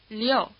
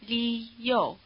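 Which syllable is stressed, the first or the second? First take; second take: Second; First. First: The stress is on the second syllable. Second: The stress is on the first syllable. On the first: "then shift the stress over onto the O" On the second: "say li-yo, as in Leo the lion"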